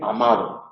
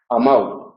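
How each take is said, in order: First: The d is soft but still audible. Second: The d is dropped and the vowels merge. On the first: It is the standard form. The speaker calls it right. "pronunciar una D relajada que se pueda oír" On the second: It marks northern dialect speech. The speaker calls it wrong. "la consonante desaparece... decimos comprau, amau"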